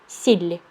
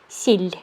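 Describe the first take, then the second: Both takes have the same delivery.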